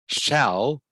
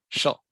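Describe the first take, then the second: First: The word has a full, clear vowel. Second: The word has a short, weak vowel.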